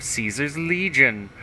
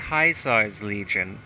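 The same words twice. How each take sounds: First: Said in the usual way. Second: "Caesar's" said as KAI-sar's; "Caesar's Legion" with mock-Latin KAI-sar's; mock Latin pronunciation. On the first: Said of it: "Oh, I'm sorry". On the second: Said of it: "Oh, I'm sorry. He said".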